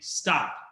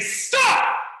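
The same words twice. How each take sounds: First: It is said at a plain, normal volume. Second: It is said extremely loudly.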